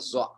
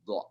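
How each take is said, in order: First: The letter is said with a z sound. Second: The letter is said with a dh sound. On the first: The speaker calls it wrong. "Biasanya orang-orang Asia Selatan, India, Pakistan, Bangladesh, dha ini dibaca za" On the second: The speaker calls it right. "yang benar itu dha"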